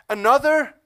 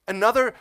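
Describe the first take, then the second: First: Another louder and much higher; peak emphasis. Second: Another said loud and high; building emphasis. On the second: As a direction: climb on another. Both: Real, not acted. Building list.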